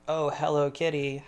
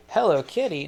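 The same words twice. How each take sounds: First: "Oh, hello, kitty." light and easy, tune lifting on hello; casual, offhand greeting to the cat; the right take. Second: "Hello, kitty." said louder, a bit too punchy; botched re-do of greeting the cat; wrong take. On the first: Showing how he greeted the cat, easy and light. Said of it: "Just like". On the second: Re-doing the cat greeting, a wrong louder take. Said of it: "No, no, not like that". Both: Shown as a demonstration.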